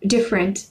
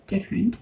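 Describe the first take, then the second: First: Said in the usual way. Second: "different" trailed off quietly with a rising tune; soft rising different. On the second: Shown as a demonstration. Noting her quirky sound, a soft rising "different". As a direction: say "different" softly, tune lifting at the end. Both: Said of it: "my individual sounds were weird".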